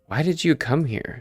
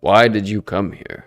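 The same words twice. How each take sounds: First: It is said in an ordinary narrating voice. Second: It is said in a put-on godlike voice. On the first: The speaker calls it wrong. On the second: The speaker calls it right.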